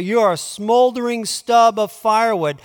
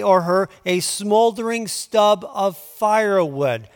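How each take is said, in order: First: A touch higher and louder, mock name-calling; mock insult. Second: Said in the usual way. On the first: Shown as a demonstration. Preacher showing his flock how to insult someone, mock scorn. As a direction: hurl it like a playful insult. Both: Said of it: "say it this way".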